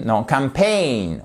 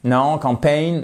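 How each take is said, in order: First: Campaign with stress on the second syllable, pain; slow, correct English campaign, stress on pain. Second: Campaign said like French campagne, first syllable stressed; mock French-learner campaign; wrong French campaign. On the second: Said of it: "C'est pas campaign, campagne". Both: Shown as a demonstration.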